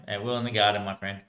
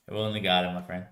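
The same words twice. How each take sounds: The two takes are said the same way.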